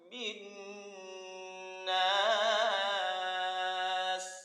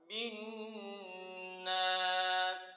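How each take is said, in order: First: The final vowel is held for four beats. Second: The final vowel is held for two beats. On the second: "kalau dua"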